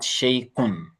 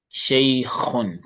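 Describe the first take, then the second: First: Shaykhun said with a plain k, not kh; wrong k sound. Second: Shaykhun with a throaty kh from the throat; correct kh. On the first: Teacher mimics the student's wrong k, slowly. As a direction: mimic the mistake, shaykhun with a hard k. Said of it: "The kha is not pronounced as k". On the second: Teacher shows the right kh after the wrong k. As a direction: scrape the kh in Shaykhun like clearing the throat. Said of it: "It's pronounced as kh". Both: Shown as a demonstration.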